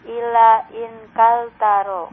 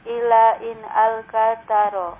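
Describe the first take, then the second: No difference in how they are said.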